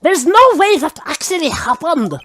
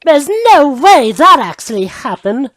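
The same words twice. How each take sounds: First: Bad German accent. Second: Haughty prosecutor voice, higher and louder; Franziska von Karma voice. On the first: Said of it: "Or in German". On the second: Retold or imitated. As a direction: sneer it like a proud prosecutor. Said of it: "In the words of Miss Von Karma".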